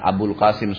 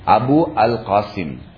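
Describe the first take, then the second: First: The 'al' is merged into the preceding word. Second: The 'al' is said as a separate syllable. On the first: This is the everyday form used locally. "di Indonesia kan Abul Qasim. Supaya langsung dibaca begitu" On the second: This is the full underlying form of the name. "sebenarnya Abu Al-Qasim. Pakai Al-Qasim"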